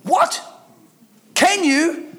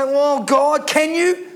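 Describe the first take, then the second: First: High-pitched, disbelieving echo; incredulous. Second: Doubting believer. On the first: Preacher throwing doubters' question back at them, incredulous. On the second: Doubting believers asking God, voiced with a rising question. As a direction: ask it as a doubter would. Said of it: "And we say". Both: Acted.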